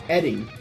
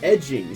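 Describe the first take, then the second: First: The middle sound is a plain 'd' sound. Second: The middle sound is a soft 'j' sound. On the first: The speaker calls it right. "It's Edding" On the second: The speaker calls it wrong. "I've been reading it as edging"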